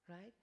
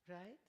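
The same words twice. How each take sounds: The two takes are said the same way.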